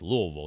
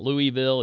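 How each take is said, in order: First: The name is slurred and mumbled, syllables run together. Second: The name is said clearly with every syllable distinct. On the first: This is how local people say it. The speaker calls it right. "you have to say it like you have a mouthful of pennies" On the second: This is how outsiders say it. The speaker calls it wrong. "not Louisville"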